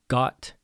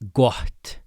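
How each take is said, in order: First: The t comes with no breathy puff before it. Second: A breathy h-like puff comes before the t. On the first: The speaker calls it wrong. "not got" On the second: The speaker calls it right. "a little pre-aspiration... I'll try to overemphasize it"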